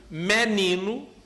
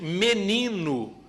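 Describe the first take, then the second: First: It is said in a northeastern Brazilian accent. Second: It is said in a central-western Brazilian accent. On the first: "no Nordeste" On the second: "no Centro-Oeste"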